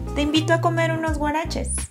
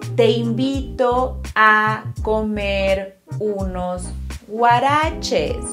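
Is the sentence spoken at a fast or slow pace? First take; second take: fast; slow. First: The sentence is spoken at normal speed. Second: The sentence is spoken more slowly.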